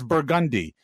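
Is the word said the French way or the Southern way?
Southern. It is said with a Southern American pronunciation. The speaker calls it right. "no, that's Burgundy"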